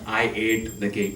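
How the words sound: It is said in an Indian accent.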